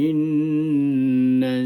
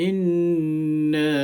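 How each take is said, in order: Both takes have the same delivery.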